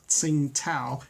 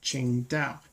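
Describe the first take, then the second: First: The second syllable begins with a t sound. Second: The second syllable begins with a d sound. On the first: The speaker calls it wrong. "it's not actually pronounced Tsingtao" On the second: The speaker calls it right. "T A O is actually pronounced Dao"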